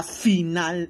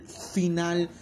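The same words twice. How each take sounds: First: Louder hyped final; hyped shout. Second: Said in the usual way. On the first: Shown as a demonstration. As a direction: belt out the word final. (final gritado con emoción) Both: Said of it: "ultra mega".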